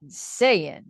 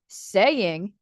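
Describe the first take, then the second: First: The final G sound is dropped. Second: The final G sound is pronounced.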